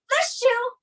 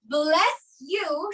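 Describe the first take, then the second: First: The s and y merge into sh. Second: The s and y sound separately.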